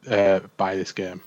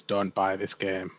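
First: A half-hearted sales push from an unsure publisher; hesitant publisher pitch. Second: Slow and a touch softer, flatly warning people off; deadpan developer warning. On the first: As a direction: publishers quoted pushing the game anyway, slow mock hesitation. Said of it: "But the publishers are like". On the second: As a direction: say it like a weary developer begging buyers to stay away. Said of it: "the official word from the developers is". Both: Retold or imitated.

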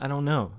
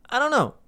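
First: Said in the usual way. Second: Exasperated. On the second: Real, not acted. Repeated exasperation.

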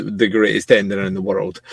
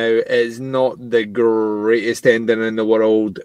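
First: Said in the usual way. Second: "greatest" stretched slowly from its first sound; slow, measured line with "greatest" drawn out. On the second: Real, not acted. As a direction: linger on the start of "greatest". Contrasts not greatest with is greatest.

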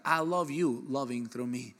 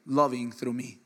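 First: I love you loving through me, said slowly, word by word; slow repeat. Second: Said in the usual way. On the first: Shown as a demonstration. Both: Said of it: "Let me repeat that".

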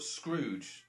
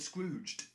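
First: Scrooge drawn out slowly, without a final d; stress on Scrooge. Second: Scrooged drawn out slowly, ending on its final d; stress on Scrooged. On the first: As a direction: set "Scrooge" apart, slow and distinct. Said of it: "I've also got Scrooge". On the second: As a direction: correct them with a slow, distinct "Scrooged". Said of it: "No, no, I said Scrooged". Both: Shown as a demonstration.

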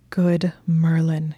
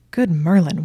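First: Slow, whispered awe like a prayer; prayer of thanksgiving. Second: Loud, falling exclamation; excited exclamation. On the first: A narrator's reading. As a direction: breathe it out slowly in grateful wonder. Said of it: "his voice like a prayer of thanksgiving". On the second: Acted. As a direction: blurt it out in delight. Exclaims at her red lace bra.

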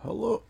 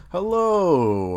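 First: Said in the usual way. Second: Louder fresh start; loud restart. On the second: Real, not acted. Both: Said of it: "Oh, Jesus".

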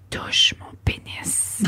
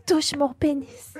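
First: Slow breathy whisper into the ear; sultry whisper. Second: Quieter, slower mock seductive line; mock sultry whisper. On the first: Retold or imitated. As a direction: whisper it slowly and seductively. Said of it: "je lui ai dit dans l'oreille avec une voix sensuelle". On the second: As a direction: lightly imitate her sultry tone. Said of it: "Elle dit".

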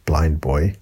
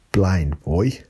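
First: Said in the usual way. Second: Put-on clumsy Irish accent, lilting up at the end; bad Irish accent. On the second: Podcaster naming a favourite podcaster, in a poor Irish accent. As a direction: attempt an Irish accent and miss. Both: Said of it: "That's not a good Irish accent".

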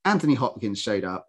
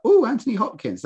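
First: Said in the usual way. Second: High, swooping "Oh" on spotting Anthony Hopkins; mildly starstruck coo; pleasantly impressed. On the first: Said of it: "I've been like". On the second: Retold or imitated. Viewer spotting a guest star in the titles, pleasantly impressed. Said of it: "guest stars where I've been like".

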